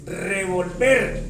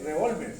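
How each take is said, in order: First: Revolver stressed on the last syllable, slow; stress on -ver. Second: Revólver with the stress on vól. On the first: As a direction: say revolver slowly, stressed at the end. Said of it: "Y revólver sin acento". (revolver lento, con acento en la última sílaba) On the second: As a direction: say revólver stressed on the middle syllable. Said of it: "lleva una, un acento aquí". (revólver con acento en la sílaba vól) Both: Shown as a demonstration.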